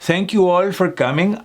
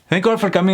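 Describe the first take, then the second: First: The sentence is spoken slowly. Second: The sentence is spoken very quickly. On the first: It is understood despite the accent. The speaker calls it right. "if I took my time" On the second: Many words would not be understood. The speaker calls it wrong. "I said that very fast"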